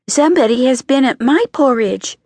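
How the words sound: It is said in a medium voice.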